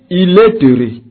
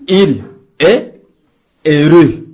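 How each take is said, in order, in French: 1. Les mots sont liés par une liaison. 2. Les mots sont prononcés séparément, sans liaison. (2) "On ne peut pas dire"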